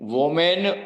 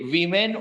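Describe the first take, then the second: First: The first syllable has an 'o' vowel. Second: The first syllable has an 'i' vowel. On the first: The speaker calls it wrong. "વોમેન વુમેન કઈ જ નહીં" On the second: The speaker calls it right. "વિમેન ઉચ્ચાર છે"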